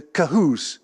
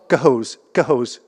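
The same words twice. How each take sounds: First: "Cahoes" with a long oo in the second syllable; tentative reading pronunciation. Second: "Cahoes" as ka-HOZE, long o, loudly stressed; stress on second syllable. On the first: Lecturer asking locals for help pronouncing the waterfall's name, tentative pronunciation. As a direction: say "Cahoes" as ka-HOOS. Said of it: "I would say, reading the manuscript". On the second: Lecturer repeating the corrected waterfall name, "Cahoes" stressed on HOES. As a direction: punch the second syllable of "Cahoes", rhyming it with hose. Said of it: "with the accent on the second syllable".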